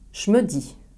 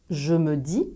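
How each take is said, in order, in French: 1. Le mot « je » se prononce comme « che ». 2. Le mot « je » garde son son j sonore.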